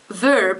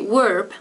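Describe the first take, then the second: First: The word begins with a V sound. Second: The word begins with a W sound. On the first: The speaker calls it right. "instead of verb" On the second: The speaker calls it wrong. "I sometimes say verb instead of"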